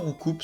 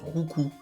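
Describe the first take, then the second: First: The word ends with a sounded final consonant. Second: The word ends on a vowel with nothing after. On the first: The speaker calls it wrong. "ça se prononce pas Roucoups" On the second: The speaker calls it right. "ça se prononce Roucou"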